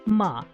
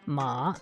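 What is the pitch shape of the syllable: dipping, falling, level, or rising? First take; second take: falling; dipping. First: The pitch falls sharply from high to low. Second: The pitch dips low, then comes back up. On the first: "a fourth tone, which is a, a falling tone" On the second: "a third tone, which is kind of like a dipping tone"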